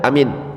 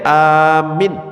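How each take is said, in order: First: Both vowels are said short. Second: The first vowel is long, the second short. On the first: It means safe. "dua-duanya enggak panjang, pendek semuanya" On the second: It means asking for protection. "a-nya yang panjang, minnya yang pendek"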